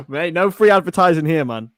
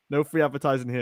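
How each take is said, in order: First: Loud, laughing half-shout; loud protest. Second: Said in the usual way. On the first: Real, not acted. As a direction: call it out loudly over a laugh. Repeats the line, first time louder.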